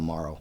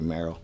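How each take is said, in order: First: The first vowel sounds like the vowel in 'more'. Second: The first vowel sounds like the vowel in 'mare'. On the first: This is the common but mistaken version. The speaker calls it wrong. "everybody called him Morrow" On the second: This is the actual version of the name. The speaker calls it right. "but it's actually Marrow"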